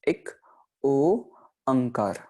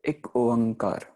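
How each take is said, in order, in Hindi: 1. दूसरा शब्द अलग-अलग हिस्सों में बोला गया है। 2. दूसरा शब्द एक ही बार में सहजता से बोला गया है।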